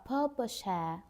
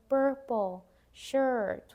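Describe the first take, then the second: First: It is said in a British accent. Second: It is said in an American accent. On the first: "if we want that more British" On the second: "in American, we would pronounce like"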